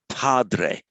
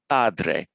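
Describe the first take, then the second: First: The p has a puff of breath. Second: The p has no puff of breath. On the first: The speaker calls it wrong. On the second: The speaker calls it right.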